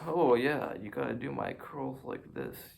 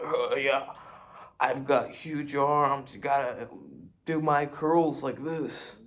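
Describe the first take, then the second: First: Said in the usual way. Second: Louder, slow swaggering brag; boastful gym bro. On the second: Pretend. Showing off huge arms to the viewers, slow loud gym bro brag.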